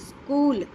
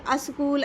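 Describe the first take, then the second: First: The word starts directly with the s sound. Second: A short vowel is added before the s sound. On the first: The speaker calls it right. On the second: The speaker calls it wrong.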